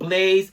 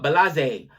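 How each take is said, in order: First: The name is said normally as one syllable. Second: The name is garbled with an extra syllable. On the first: This is the intended name. The speaker calls it right. "do you mean Blaze?" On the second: The speaker is struggling to read the name. The speaker calls it wrong. "he's trying to pronounce the names"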